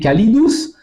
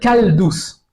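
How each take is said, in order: First: The short middle vowel is pronounced. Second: The short middle vowel is dropped. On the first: This is the older classical form. "pour dire chaud, c'était calidus" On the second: This is how people came to say it in everyday speech. "les gens de plus en plus vont dire caldus"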